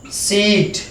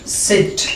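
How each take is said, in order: First: "सीट" with a long drawn ee. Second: "सिट" with a short clipped i. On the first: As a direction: stretch the ee in "सीट". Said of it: "बड़ा वाला ई". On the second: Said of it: "ई के लिए". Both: Shown as a demonstration. Teacher contrasting short and long vowels.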